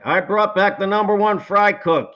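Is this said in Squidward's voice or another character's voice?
Squidward. It is said in Squidward's character voice.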